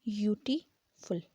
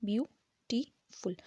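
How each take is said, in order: First: यू टी फुल split into three slow parts; syllable by syllable. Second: ब्यूटीफुल said slowly as one word; whole word, slow. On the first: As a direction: beat out यू टी फुल. (यू टी फुल अलग अलग बोलें) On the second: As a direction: join ब्यूटीफुल back together. (ब्यूटीफुल धीरे से पूरा) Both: Shown as a demonstration. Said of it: "तीन syllable".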